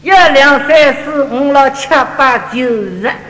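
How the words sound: It is counted lightly in a Shanghai accent, teeth closed.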